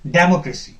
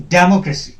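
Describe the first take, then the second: The two takes are said the same way.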